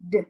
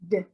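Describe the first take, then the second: No difference in how they are said.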